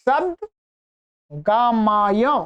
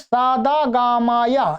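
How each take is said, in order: First: No extra vowel is added after the d. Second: Extra vowels are added after the d. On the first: The speaker calls it right. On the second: The speaker calls it wrong.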